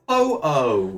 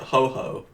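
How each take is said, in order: First: The second syllable starts without an H sound. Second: The second syllable starts with an H sound. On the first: The speaker calls it right. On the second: The speaker calls it wrong.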